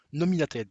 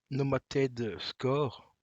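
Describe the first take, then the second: First: Nominated said in full, four syllables, a little louder; self-correcting Nominated, firmly said; corrected word. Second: Nomated said slowly, missing a syllable; a slow fumbled Nomated; mispronounced word. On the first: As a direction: fix it with a clear Nominated. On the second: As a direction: stumble over Nomated, dropping the middle. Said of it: "Norma? Non". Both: Real, not acted.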